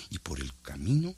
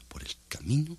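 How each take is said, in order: First: Said in the usual way. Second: Whispered. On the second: A narrator's reading. Narrator whispering the road to listeners. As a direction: whisper the phrase softly.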